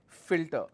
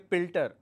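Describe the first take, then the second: First: The word begins with an f sound. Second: The word begins with a p sound. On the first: The speaker calls it right. "instead of filter" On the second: The speaker calls it wrong. "they say pilter instead of filter"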